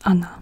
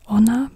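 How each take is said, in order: First: The first vowel sounds like a reduced 'a'. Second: The first vowel sounds like a full 'o'. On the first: The speaker calls it right. "but Anna" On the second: The speaker calls it wrong. "it's not pronounced Ona"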